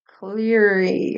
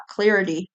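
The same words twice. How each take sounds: First: "Clarity" drawn out slowly as "cleeer-ee"; sounding out. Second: Said in the usual way. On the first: Real, not acted. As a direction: stretch "Clarity" out, puzzling over its spelling. Sounding out an oddly spelled word.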